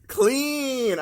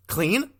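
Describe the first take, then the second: First: Loud, high cry of "Clean!"; triumphant shout. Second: Curtis language voice. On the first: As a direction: yell "Clean!" in the made-up language. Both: Pretend. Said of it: "I can speak Mister Curtis's language".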